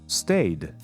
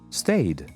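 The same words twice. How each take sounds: Both takes have the same delivery.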